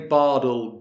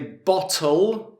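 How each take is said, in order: First: The middle t sounds like a d. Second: The middle t is fully pronounced. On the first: "with the d sound, which is used more in America" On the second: "we would say bottle"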